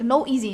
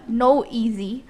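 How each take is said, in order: First: The two words are run together quickly. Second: The two words are said slowly and separately.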